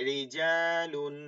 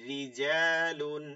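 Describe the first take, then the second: No difference in how they are said.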